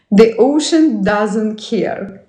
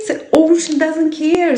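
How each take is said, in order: First: Said in the usual way. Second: Much higher, mock-grand voice; a higher playful voice for the ocean; put-on voice. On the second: Shown as a demonstration. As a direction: say it again in a lofty funny voice. Repeats line in put-on voice.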